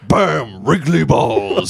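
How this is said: It is said in a Mortal Kombat announcer voice.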